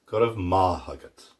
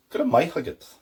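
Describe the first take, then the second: First: Good of ma huggit said with ma; everyday Irish Good of ma huggit; common pronunciation. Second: Good of my huggit in Ulster style, my for ma; Ulster Irish. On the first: Teacher modelling the common form. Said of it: "more common pronunciation". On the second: Teacher modelling the Ulster form. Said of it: "And then Ulster". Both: Shown as a demonstration.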